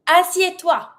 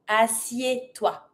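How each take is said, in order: First: Higher-pitched order to sit; energetic command. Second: Slow, lower teaching take; slow repeat. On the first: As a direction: command the animal with lift. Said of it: "We always try to be super energetic". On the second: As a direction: spell out the syllables unhurriedly. Slower repeat for learners. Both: Shown as a demonstration.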